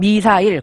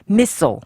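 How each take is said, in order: First: Every syllable gets equal stress. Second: The stress falls on the first syllable. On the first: "한국말은 미사일, 강세가 다 똑같은데" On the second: "영어는 처음 모음에 missile"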